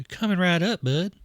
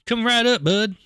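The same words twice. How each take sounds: First: Lightly voiced friendly grill dad; corrected character voice. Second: High, loud, chirpy reply; wrong character voice. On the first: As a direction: take the order, only a little raised. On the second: Acted. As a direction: take the order in a raised voice. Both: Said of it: "That's the wrong voice".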